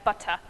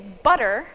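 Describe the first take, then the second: First: The middle t is a clear t. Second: The middle t sounds like a soft d. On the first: "more British Englishes will still pronounce it as butter" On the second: "it's more like a duh. This is specific to American English"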